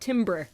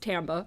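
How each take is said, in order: First: The word is said as its spelling suggests. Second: The word is said the French way. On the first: The speaker calls it wrong. "It looks like timbre" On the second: The speaker calls it right. "but it's pronounced timbre"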